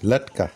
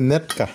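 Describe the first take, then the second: First: The word begins with an l sound. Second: The word begins with an n sound. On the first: This is the standard form. "আর কেউ কয় লেটকা। লেটকাটা শুদ্ধ।" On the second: This is the local dialect form. "আমরা কই নেটকা আঞ্চলিক ভাষা"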